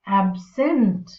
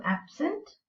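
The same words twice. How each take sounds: First: Absent with the stress on SENT, drawn out; ab-SENT, as a verb; second-syllable stress. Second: Absent with the stress on AB; AB-sent, second syllable light; first-syllable stress. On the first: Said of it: "the stress is on the second syllable". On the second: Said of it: "the stress is on the first syllable". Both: Shown as a demonstration.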